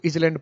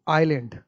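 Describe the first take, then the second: First: The word has a z sound before land. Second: The word begins with eye and no s sound. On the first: The speaker calls it wrong. "कुछ लोग तो इसको इजलैंड पढ़ देते" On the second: The speaker calls it right. "हमको लिखना आइलैंड"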